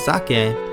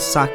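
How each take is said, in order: First: The word begins with a voiced z sound. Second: The word begins with a voiceless s sound. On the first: "this is pronounced as zake" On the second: "the final part of the word is sake"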